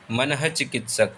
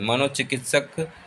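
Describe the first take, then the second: First: मनः चिकित्सक with breathed ha after mana; correct form manah-chikitsak. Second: मनोचिकित्सक with mano, an o; wrong form manochikitsak. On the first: (सही उच्चारण: मनः में विसर्ग) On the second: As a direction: say मनोचिकित्सक as ma-no-chikitsak. (गलत रूप: मनोचिकित्सक, 'नो' के साथ) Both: Shown as a demonstration. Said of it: "मनः चिकित्सक सही शब्द है".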